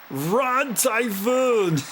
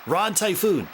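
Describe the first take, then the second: First: The voice sounds richer, with fuller harmonics. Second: The voice sounds plain and ordinary. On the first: "Lavitz's voice is a bit more... richer" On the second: "Albert says Rod Typhoon"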